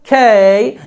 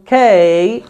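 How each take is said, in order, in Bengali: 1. k টিতে বাতাসের ফুঁ আছে, একটু টান হয়। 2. k টিতে বাতাসের ফুঁ আছে, একটু টান হয়।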